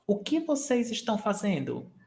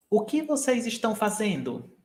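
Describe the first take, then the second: No difference in how they are said.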